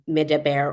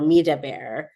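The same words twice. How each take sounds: First: It is said in the plain active form. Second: It is said in the reflexive form. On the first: The voice speaks outward to the listener. "whether the voice is being directed outwardly towards Moses" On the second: The voice speaks to itself and is overheard. "or whether the voice is being directed to itself"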